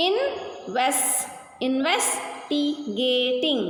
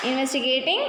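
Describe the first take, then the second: First: "investigating" slowly broken up, pausing between parts; teacher's drawn-out split of "investigating"; syllable by syllable. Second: Said in the usual way. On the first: Shown as a demonstration. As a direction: sound out "investigating" in slow, separate chunks. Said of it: "Three syllables".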